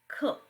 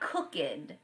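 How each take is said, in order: First: The ending sounds like a plain T. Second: The ending does not sound like a T. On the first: The speaker calls it right. "Some words sound like T" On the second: The speaker calls it wrong. "It's a common error for students to say"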